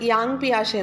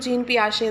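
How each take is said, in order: First: The first name sounds like 'yahng'. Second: The first name sounds like 'jeen'. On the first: This is how it is read in Malayalam. "മലയാളത്തിൽ അത് യാങ് പിയാഷെ എന്ന് വായിക്കും" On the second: This is how it is read from English spelling. "ഇംഗ്ലീഷിൽ എഴുതുമ്പോൾ ജീൻ പിയാഷെ എന്നാണ് വായിക്കുക"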